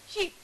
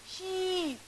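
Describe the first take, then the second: First: The vowel is short and clipped. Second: The vowel is long and drawn out. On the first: The speaker calls it wrong. "That is not correct" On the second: The speaker calls it right. "you have to prolong it"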